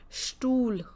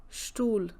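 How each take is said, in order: Both takes have the same delivery.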